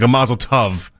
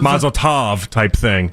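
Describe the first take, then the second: First: The word 'tov' rhymes with 'love'. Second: The word 'tov' does not rhyme with 'love'. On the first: The speaker calls it right. "it's supposed to be like a like a almost like a rhymes with love at the back end of it" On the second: The speaker calls it wrong. "way wrong apparently"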